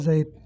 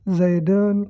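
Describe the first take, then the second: First: The word stops bare without an ending. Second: The word ends with an -un ending.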